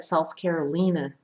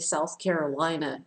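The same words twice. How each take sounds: First: It is said with a non-American pronunciation. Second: It is said with an American pronunciation. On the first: Someone else said it this way. "interesting he said South Carolina" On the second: This is how Americans say it. "it's actually South Carolina in American English"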